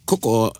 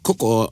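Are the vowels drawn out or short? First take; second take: drawn out; drawn out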